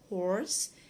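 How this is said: The r sound after the vowel is pronounced. "This is American with the R"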